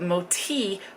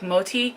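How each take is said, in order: First: The T is pronounced hard. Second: The T is pronounced softly. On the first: "Moti with a hard T is something like chubby or fatty" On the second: "with a soft T"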